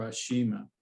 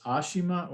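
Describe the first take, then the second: First: Ashima with stress on the middle "shi"; second pronunciation option. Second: Ashima with stress on the opening A; first pronunciation option. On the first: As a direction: say Ashima as a-SHEE-ma. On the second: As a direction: say Ashima with the first syllable leading. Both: Shown as a demonstration. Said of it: "how you pronounce her name".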